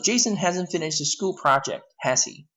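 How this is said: It sounds like confirming what is already known.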